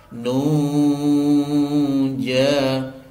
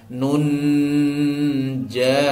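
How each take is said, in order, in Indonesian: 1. Bunyi n kabur menjadi dengung sengau. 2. Bunyi n diucapkan dengan jelas, tidak kabur. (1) "itu yang betul" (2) "Kalau yang salah ... ini dijelaskan tidak disamarkan"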